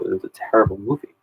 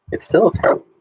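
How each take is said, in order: First: Said in the usual way. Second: Much higher, insisting on still; teasing indignation, pitched high; mock outrage. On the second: Real, not acted. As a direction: jump way up in pitch on It's still a terrible movie, leaning on still. Mock outrage at a student's film pick.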